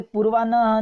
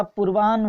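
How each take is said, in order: First: पूर्वान्ह said "poor-vaa-nha"; an open final syllable, n then h, in पूर्वान्ह; n before h. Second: पूर्वान्ह said "poor-vaahn"; h before n. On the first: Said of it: "नहीं होता". (पूर्वान्ह में पहले "न", फिर "ह") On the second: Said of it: "न बाद में आता है". (पूर्वान्ह को "पूर्वाह्न" बोलें) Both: Shown as a demonstration.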